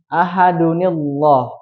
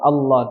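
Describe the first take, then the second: First: The l is thin and joined to the preceding word. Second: The l is thick and begins with a glottal stop. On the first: The first verse is joined to the next one. "maka tidak dibaca tebal. ... Tapi dibacanya tipis" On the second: The reading stops after the first verse. "Allah dengan hamzah"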